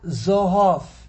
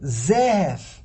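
First: The word is said with o vowels. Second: The word is said with e vowels. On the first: Strict judgment stands alone. "Not Zohov" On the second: Strict judgment is tempered with mercy. "we're going to pronounce Zohov is not Zohov. It's Zehev"

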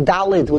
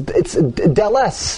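First: The word ends with a d sound. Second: The word ends with an s sound. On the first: The speaker calls it wrong. "We say Dalid with a D. It's not correct" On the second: The speaker calls it right. "It's Deles"

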